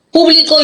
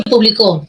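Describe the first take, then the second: First: PÚBLICO stressed on PÚ; stress on first syllable. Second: PUBLICÓ stressed on final CÓ; stress on last syllable. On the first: Teacher gives an example of accentual paronyms, stress on first syllable. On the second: Teacher gives an example of accentual paronyms, stress on last syllable. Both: Shown as a demonstration. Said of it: "son parónimos acentuales".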